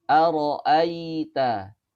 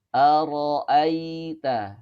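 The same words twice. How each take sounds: No difference in how they are said.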